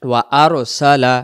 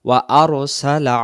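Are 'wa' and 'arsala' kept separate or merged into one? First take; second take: separate; separate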